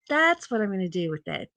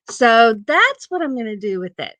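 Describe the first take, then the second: First: Softer repeat, trailing off; quiet repeat. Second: Said in the usual way. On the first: Shown as a demonstration. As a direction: say it again under your breath.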